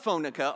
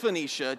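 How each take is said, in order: First: The word is said as 'Phoenica'. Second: The word is said as 'Phoenicia'. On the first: The speaker calls it wrong. "It's not Phoenica" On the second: The speaker calls it right. "It's Phoenicia"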